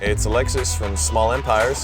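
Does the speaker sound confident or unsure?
unsure. The voice sounds hesitant and unsure. The speaker calls it wrong.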